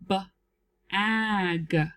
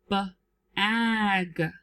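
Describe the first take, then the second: First: The word is split into two parts with a break. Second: The word is split into two parts with a break.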